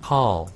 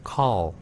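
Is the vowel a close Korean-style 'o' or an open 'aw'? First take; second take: open aw; open aw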